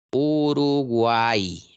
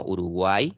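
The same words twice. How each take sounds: First: "Uruguay" stretched very slowly, the final y sung out as an i vowel; drawn-out Y as I. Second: Said in the usual way. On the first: Shown as a demonstration. Teacher showing students the triphthong, "Uruguay" drawn out slowly with y as i. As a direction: draw out "Uruguay", letting the y ring as a Spanish i. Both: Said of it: "La Y está sonando como I".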